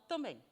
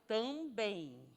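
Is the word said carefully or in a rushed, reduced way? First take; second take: rushed; carefully. First: The word is said quickly with sounds dropped. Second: The word is pronounced fully and carefully. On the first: The speaker calls it wrong. "na corrida, fala" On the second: The speaker calls it right. "A palavra é também"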